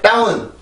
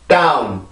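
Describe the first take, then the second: First: It sounds Korean, without strong English stress. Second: It sounds English, with a strong stressed single syllable. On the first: The speaker calls it wrong. "절대 다운, 다운 혹은 다운, 다운 이렇게 발음을 하면 안 되고" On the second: The speaker calls it right. "강세를 정확히 집어넣고 혀의 위치를 정확히 잡아주면서 발음을 해줘야 영어다운 소리가 나는 거예요"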